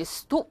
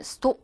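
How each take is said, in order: First: "stop" with an open "ah" vowel; American O. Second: "stop" with a rounded "o"; British O. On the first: Teacher shows American vowel, "stop" as stahp. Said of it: "미국 사람들은 왠지". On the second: Teacher shows British vowel, "stop" with rounded o. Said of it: "영국 사람들은 stop 이렇게 오 발음에". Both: Shown as a demonstration.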